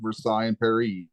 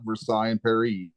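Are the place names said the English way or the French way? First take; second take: French; French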